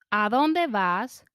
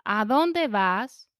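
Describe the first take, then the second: No difference in how they are said.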